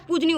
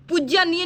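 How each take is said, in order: First: Short, falling पूजनीय; correct form shown. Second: Every syllable of पूज्यनीय, lifted; wrong form shown. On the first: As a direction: drop the ya after j in पूजनीय. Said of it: "पूजनीय होता है". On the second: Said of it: "पूज्यनीय नहीं होता है". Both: Shown as a demonstration.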